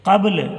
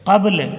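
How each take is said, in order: No difference in how they are said.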